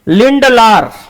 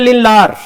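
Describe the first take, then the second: First: The d sound in the middle is pronounced. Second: The d sound in the middle is dropped.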